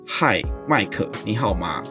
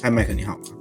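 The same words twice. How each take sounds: First: It is said slowly and deliberately. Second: It is said more quickly.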